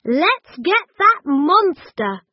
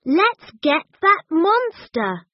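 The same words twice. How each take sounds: First: High and loud, punching that; rally the hunt gleefully; eager. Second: High, lively, stress on that; eager. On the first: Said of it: "said Gran". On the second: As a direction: urge everyone after the monster. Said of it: "said Chip". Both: A narrator's reading.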